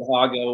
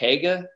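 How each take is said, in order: First: The first vowel sounds like 'ah'. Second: The first vowel sounds like 'eh'. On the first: This may be the older, original way. "maybe they said Haga way back in the day" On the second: This is how the family in Ohio says it. "like with an E more than an A"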